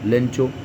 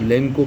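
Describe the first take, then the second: First: The middle consonant is a 'ch' sound. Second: The middle consonant is a 'k' sound. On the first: "I think दोनों ठीक है" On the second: "कई बार उसको लेंको pronounce किया गया है"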